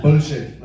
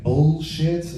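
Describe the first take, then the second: First: Punchy Indian-accented "bullshit", swallowed l. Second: "bullshit" slowly in an American accent, full l. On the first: Comic showing the right version, emphatic Indian-accented "bullshit". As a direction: hit "bullshit" louder with an Indian accent, BOH-shit. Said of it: "without saying it in an Indian accent". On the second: Comic testing the wrong version, slow American-accented "bullshit". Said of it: "that sounds too incesty". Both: Shown as a demonstration.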